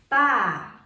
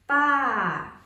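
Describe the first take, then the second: First: The pitch drops sharply from high to low. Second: The same.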